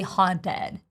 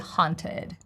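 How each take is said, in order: First: The middle T is a quick flap. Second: The middle T is a clear T. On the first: The speaker calls it wrong. "I would not say haunted" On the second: The speaker calls it right. "I would say haunted. ... I think it's a regular T"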